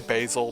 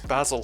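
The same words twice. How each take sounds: First: The name is pronounced in an American way. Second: The name is pronounced in a non-American way.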